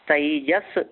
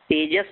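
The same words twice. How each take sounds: First: The first vowel is an 'ai' sound. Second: The first vowel is a plain 'e' sound. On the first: The speaker calls it right. "तई double मात्रा है उसके ऊपर" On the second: The speaker calls it wrong. "तेजस नहीं"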